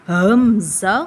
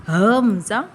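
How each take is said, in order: Both takes have the same delivery.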